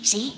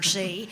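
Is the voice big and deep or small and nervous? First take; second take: small nervous; big deep. First: A small, nervous little character voice. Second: A big, heavy, deep character voice.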